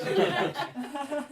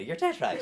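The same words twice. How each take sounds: First: Higher, very slow, laughing mum echo. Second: Lightly voiced Irish mum, a plain first take; a hint of the mother, said simply. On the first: Retold or imitated. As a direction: stretch it out high, laughing as the mother. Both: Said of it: "this isn't even my real voice".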